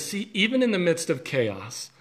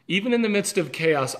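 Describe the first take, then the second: First: Said in the usual way. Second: "even in the midst of chaos" repeated higher and firmer; emphatic repeat. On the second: Shown as a demonstration. Pastor repeating God's words to his viewers, emphatic. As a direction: lift the repeated phrase, pressing each word.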